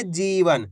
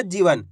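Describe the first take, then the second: First: "जीवन" with a long, held ई after ज; drawn-out vowel. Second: "जीवन" with a short इ, like "जिवन"; short vowel. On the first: Teacher correcting the short reading, "जीवन" with drawn-out ई. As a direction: stretch the जी in "जीवन". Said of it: "खींच के पढ़ेंगे जीवन". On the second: Teacher showing learners how not to read it, "जीवन" with short इ. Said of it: "ऐसे नहीं पढ़ना जीवन". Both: Shown as a demonstration.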